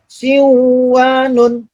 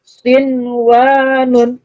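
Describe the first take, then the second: First: The n sound merges into the following w. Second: The n sound is pronounced clearly before w. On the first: The speaker calls it wrong. "Bukan dibaca siwanun" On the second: The speaker calls it right. "Begitu juga sinwanun"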